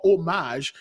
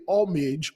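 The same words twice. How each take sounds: First: "homage" as oh-MAHZH; French-style pronunciation. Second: "homage" as OM-ij; anglicised pronunciation. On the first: Teacher offering another reading, "homage" as French oh-MAHZH. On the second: Teacher offering one reading, "homage" as OM-ij. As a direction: stress the first syllable of "homage", ending in -ij. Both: Shown as a demonstration. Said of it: "pay homage or homage".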